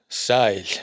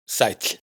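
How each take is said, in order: First: "sail" con ae largo y sostenido; diptongo largo. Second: "sæll" con ae corto y ll final; diptongo corto. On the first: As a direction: alarga el ae de "sail". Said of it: "Diptongo ae largo". (ae largo en "sail") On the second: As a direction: corta el ae de "sæll". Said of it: "Diptongo ae corto". (ae corto en "sæll") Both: Shown as a demonstration.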